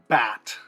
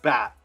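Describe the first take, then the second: First: The final t is released with a puff of air. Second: The final t is stopped in the throat. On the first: "if you want to pronounce it the aspirated way" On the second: "it should be stopping in your throat"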